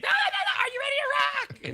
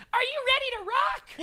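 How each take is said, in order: First: Much higher and louder, fast hype yell; insist, shouting it out again; insistent rock shout. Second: Much higher, bright hype cry; pumped-up rock call. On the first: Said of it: "And Dee said". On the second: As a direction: imitate her calling out to rock the room. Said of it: "all of a sudden I hear her say". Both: Retold or imitated.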